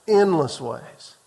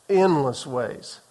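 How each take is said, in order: No difference in how they are said.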